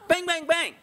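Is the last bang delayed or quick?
quick. All three bangs come quickly without a pause. The shooter rushed the final shot. The speaker calls it wrong. "If it sounds that quick"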